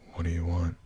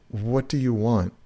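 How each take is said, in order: First: It is mumbled quietly. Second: It is spoken up loudly.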